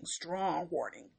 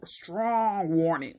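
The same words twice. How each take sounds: First: Strong warning muttered much softer as a dry aside; deadpan echo. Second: Strong drawn out slowly and sarcastically, warning trailing; mocking emphasis. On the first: Acted. Reviewer repeating the phrase in a soft, dry aside. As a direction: drop it under your breath. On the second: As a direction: savour strong warning with scorn. Mocking the film's weak ending.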